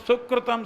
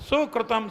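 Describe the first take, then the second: The two takes are said the same way.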